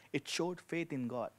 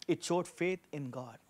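The two takes are said the same way.

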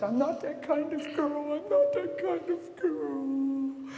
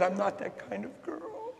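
First: High, slow tearful pleading in a woman's voice; crying plea. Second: Crying plea. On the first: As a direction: beg through tears, stretching each word. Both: Retold or imitated. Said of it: "she's crying it over and over".

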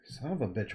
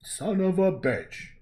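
First: Said in the usual way. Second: Slow loud high movie shout; hammed-up action-hero bellow; Arnold quote. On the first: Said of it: "What a weird insult". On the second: Vlogger quoting Arnold, slow loud mock bellow. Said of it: "Arnold Schwarzenegger saying".

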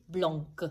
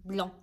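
First: Blanc said wrongly with the final C sounded, like blank. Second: Blanc said the French way, nasal vowel and no C at the end; right way, silent C. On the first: Teacher shows kids the mistake: blanc with a hard C at the end. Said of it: "There is a C, but we do not say". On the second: Teacher gives kids the correct form: blanc with a silent final C. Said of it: "Just blanc". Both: Shown as a demonstration.

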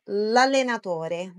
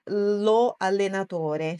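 First: "l'allenatore" run together as lallenatore; one joined sound. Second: "lo allenatore" slowly, with LO held apart; two separate sounds. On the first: Teacher shows the elided article, "l'allenatore" as one word. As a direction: glide the article straight into "l'allenatore", no O. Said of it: "fica um som único". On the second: Teacher shows what not to say, "lo allenatore" unjoined. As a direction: keep "lo" separate from "allenatore", both vowels sounded. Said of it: "então não fica". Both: Shown as a demonstration.

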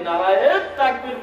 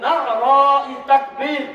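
First: "নারায়ে" with a long, stretched final -ye; mistaken pronunciation. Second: "নারাই" slowly, as Arabic na'ara-i with ayn; grammatical Arabic pronunciation. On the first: Preacher shows the common mistaken slogan, "নারায়ে" ending in long -e. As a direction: say "নারায়ে তাকবীর" with the second vowel run into a long "e". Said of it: "তাহলে আপনি বোঝাতে চাচ্ছেন". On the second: Preacher shows the correct slogan, "নারাই" drawn out Arabic-style. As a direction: stretch "নারাই তাকবীর", separating na, 'a, ra, i. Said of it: "grammar দিয়ে সুন্দর করে বলবি".

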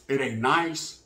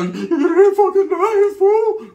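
First: Low, soft, subdued "It ain't nice"; brother's quiet understatement. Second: Much higher, louder, slow "It ain't fucking nice, fool"; how it really sounded. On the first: Brother on the phone, downplaying prison, low and soft. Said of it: "This is how he said it". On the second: The brother's real meaning as heard, a slow loud angry outburst. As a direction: let the hidden rage burst out, stretching "fucking". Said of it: "that was really the way I heard it". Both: Retold or imitated.

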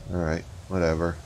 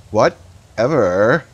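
First: Said in the usual way. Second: Slow, drawn-out sassy whatever. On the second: Pretend. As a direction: stretch Whatever out like a snotty teen. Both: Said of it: "I know I'm terrible".

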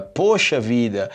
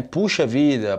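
First: "poxa" said slowly with an "oh" vowel; "poxa", rounded O in place of U. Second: "Puxa" said with a close "oo" vowel; "Puxa", first vowel as in "food". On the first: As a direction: draw out "poxa vida", first syllable "oh". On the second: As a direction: say "Puxa vida" with "oo" in the first syllable. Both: Shown as a demonstration. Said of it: "pode ser também poxa vida".

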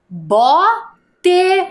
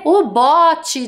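First: "Bote" split as bó, pause, tê, higher pitched; syllable by syllable. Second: Said in the usual way. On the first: Shown as a demonstration. Teacher building a word from syllables, "Bote" syllable by syllable. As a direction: sound out "Bote" with a full final e. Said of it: "E ficou o quê?". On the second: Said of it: "de colocar na água".

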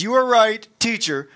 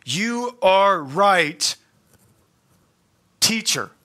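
First: "are" hit high and loud, "teacher" dropped back plain; punched are. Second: Slow "You are right", "are" drawn out and leaned on; stress on are. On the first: Preacher repeating the scribe's words, louder punch on "are". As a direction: bark out the "are" emphatically. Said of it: "So he says". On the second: Preacher quoting the scribe's reply to Jesus, slow stress on "are". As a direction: linger on "are", agreeing deliberately. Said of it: "notice what he says". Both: Retold or imitated.

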